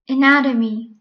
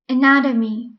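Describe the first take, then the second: First: The middle t sounds like a soft d. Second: The middle t sounds like a soft d.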